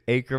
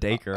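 First: The name starts with a vowel, no D. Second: The name starts with a clear D sound. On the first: The speaker calls it right. "Acre of the D silent" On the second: The speaker calls it wrong. "That's better than Dacre"

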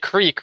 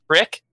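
First: It has a long ee vowel. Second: It has a short i vowel, Philly style.

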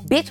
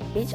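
First: The word is said in a harsh, blunt tone. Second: The word is said in a softer, gentler tone. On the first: The speaker calls it wrong. "I ain't mean it in that tone" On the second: The speaker calls it right. "let me try this way"

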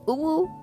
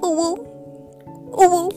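First: It is said in a less cute voice. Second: It is said in a cute kitty voice.

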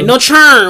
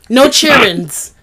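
First: It is said with a full country twang. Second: It is said without a country twang.

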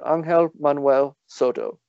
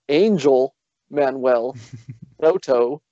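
First: The name is said with Spanish pronunciation. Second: The name is said with English pronunciation. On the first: The speaker calls it right. "I did pronounce his name correctly" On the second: The speaker calls it wrong. "It is not"

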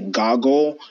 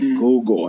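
First: The first vowel is a short 'o' sound. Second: The first vowel is a long 'oo' sound. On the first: The speaker calls it wrong. "instead of saying Google, I say goggle" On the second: The speaker calls it right. "It's like Google"

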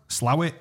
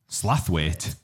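First: The name is said without a th sound. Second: The name is said with a th sound. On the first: This is how the locals say it. "How do locals of, pronounce it?" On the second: This is the spelling-based pronunciation that outsiders use. "It's obviously going to say Slaythwaite"

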